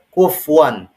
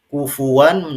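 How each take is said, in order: First: The f has no vowel after it. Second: The f is followed by a u vowel. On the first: The speaker calls it wrong. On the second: The speaker calls it right.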